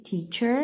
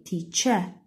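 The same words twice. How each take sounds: First: Teacher with the R sounded at the end; American teacher, rolling the final R; American pronunciation. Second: Teacher with no final R, teacha; British teacher, dropping the R; British pronunciation. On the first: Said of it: "we don't say teacher". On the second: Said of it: "we say teacher". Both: Shown as a demonstration.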